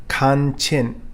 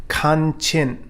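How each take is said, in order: Both takes have the same delivery.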